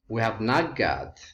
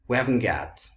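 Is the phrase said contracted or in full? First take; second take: full; contracted. First: Every word is said separately in full. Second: The middle two words merge into one word. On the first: The speaker calls it wrong. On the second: The speaker calls it right.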